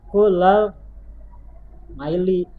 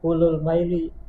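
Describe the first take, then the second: First: The first word ends with an 'a' vowel. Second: The first word ends with a 'u' vowel. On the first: The speaker calls it right. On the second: The speaker calls it wrong.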